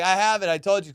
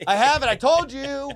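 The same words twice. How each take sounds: First: Said in the usual way. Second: High, loud acted insistence; worked-up vindication. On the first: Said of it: "So I was like". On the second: Angler proving to officers he has a license, worked-up insistence. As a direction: throw it triumphantly in their faces. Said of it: "got to the point where I was like".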